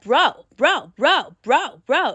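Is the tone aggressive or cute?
aggressive. It sounds aggressive and blunt.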